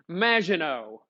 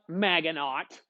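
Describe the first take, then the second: First: The name is said with a French-style pronunciation. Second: The name is said with an English-style pronunciation. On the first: The speaker calls it right. "that's how you say it in French" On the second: The speaker calls it wrong. "It's not Maginot. Sound like a darn fool hick when you say it like that"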